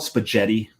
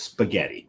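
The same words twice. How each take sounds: First: The G in the middle sounds soft. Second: The G in the middle sounds hard. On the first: The speaker calls it wrong. "do you call it spaghetti? No" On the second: The speaker calls it right. "it's spaghetti, right? There's a G H in there"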